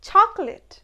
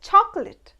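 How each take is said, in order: Both takes have the same delivery.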